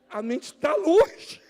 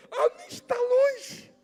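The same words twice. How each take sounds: First: Loud slow emphasis. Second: Pitched far up and slow, drawing out "longe"; high, slow, drawn-out emphasis. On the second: Preacher stressing the distracted mind, high and slow. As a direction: lift it high and stretch "A mente tá longe". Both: Shown as a demonstration. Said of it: "repeated line".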